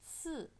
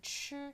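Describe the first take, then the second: First: It starts with a ts sound. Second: It starts with a ch sound. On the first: The speaker calls it right. "tapi ini ci" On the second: The speaker calls it wrong. "jadi bukan ch"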